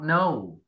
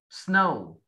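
First: The word starts without the s sound. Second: The word starts with a clear s sound. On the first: The speaker calls it wrong. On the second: The speaker calls it right.

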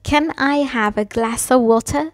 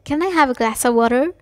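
First: It is said in a British accent. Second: It is said in an American accent.

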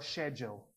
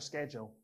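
First: It is said the traditional British way. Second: It is said a non-British way.

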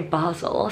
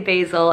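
First: It is said with a British pronunciation. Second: It is said with an American pronunciation. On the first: "the Brits say basil" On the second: "Americans say basil"

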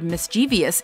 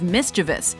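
First: The word ends with an extra 'ee' sound, as '-vee-us'. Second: The word ends without an extra 'ee' sound, as '-vus'. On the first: The speaker calls it wrong. "Many people pronounce this word" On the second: The speaker calls it right. "instead of"

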